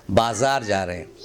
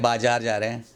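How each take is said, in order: First: बाज़ार with a z, "baa-zaar", pitched low; correct pronunciation. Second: बाजार with a j, "baa-jaar"; wrong pronunciation. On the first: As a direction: say बाज़ार with z, not j. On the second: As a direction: say बाजार the common way, j for z. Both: Shown as a demonstration. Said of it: "बाजार नहीं".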